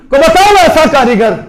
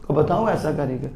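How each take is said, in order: First: Higher and louder, calling out the challenge; loud preaching challenge. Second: Much lower and softer, an awed near-whisper; soft awed echo of the challenge; hushed echo. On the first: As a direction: hurl the question at the crowd. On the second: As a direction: drop to a hush on the repeat. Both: Real, not acted. Challenge repeated loud then hushed.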